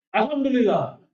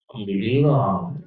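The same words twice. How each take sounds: First: It is said in an angry, heated tone. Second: It is said in a sulky, pouting tone. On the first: "saya emosi sama Jaya" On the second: "pakai nada merajuk atau ngambek"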